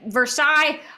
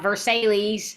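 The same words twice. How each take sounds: First: It is said the French way. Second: It is said the Southern US way.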